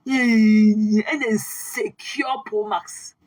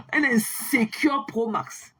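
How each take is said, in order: First: Stretched out very slowly and louder, relishing it; very slow, louder taunt. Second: Drawn out slowly, sneering; slow mocking taunt. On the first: Acted. Repeating the insult to the rival on live, very slow and louder. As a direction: savour every syllable of the insult. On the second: Mocking a rival on her live, slow taunt. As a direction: spell out the insult slowly to belittle him.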